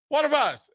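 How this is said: The phrase sounds cheerful and smiling. It is a friendly welcome. "they say it with a smile"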